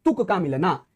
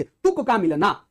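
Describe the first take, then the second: First: Said in the usual way. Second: तुक का मिलना stretched slowly, rising on का; slow emphasis. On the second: Shown as a demonstration. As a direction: draw out तुक का मिलना to stress it. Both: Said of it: "आखिरी अक्षर अंत्य".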